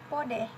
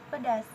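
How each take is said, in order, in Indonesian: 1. Bentuk Perawang, dengan o dan akhiran -eh. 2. Bentuk bahasa Indonesia baku, berakhiran -as.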